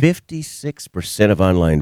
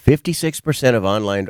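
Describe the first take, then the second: First: It is said at a slow, relaxed pace. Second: It is said at a normal, brisk pace.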